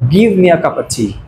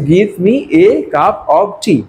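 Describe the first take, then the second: First: The word 'of' is reduced to a weak 'uh'. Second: The word 'of' is pronounced fully and clearly. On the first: This is how native speakers say it. The speaker calls it right. "They'll say give me a cup of tea. Repeating, ... অফটা গেল কোথায়?" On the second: This is how non-native speakers usually say it. The speaker calls it wrong. "এই বাক্যটা আমরা বলে কি বলছি?"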